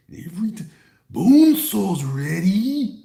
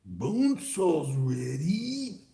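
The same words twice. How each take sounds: First: High, loud, very slow call; Bone Saw announcer. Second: Slow whispered repeat; whispered Bone Saw. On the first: Streamer quoting the Bone Saw line, drawn out. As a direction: stretch it out like a ring announcer. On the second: Streamer repeating the Bone Saw line in a whisper. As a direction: breathe it out slowly. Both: Retold or imitated. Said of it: "Remember that nonsense?".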